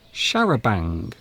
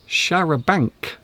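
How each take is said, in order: First: The word ends with an ng sound. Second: The word ends with a hard k sound. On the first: The speaker calls it right. "We actually pronounce this word charabang" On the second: The speaker calls it wrong. "So it isn't charabanc"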